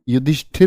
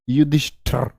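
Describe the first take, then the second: First: The last syllable is said as 'shthir'. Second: The last syllable is said as 'shthar'. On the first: The speaker calls it right. "युधिष्ठिर होता है" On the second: The speaker calls it wrong. "युधिष्ठर मत कर देना"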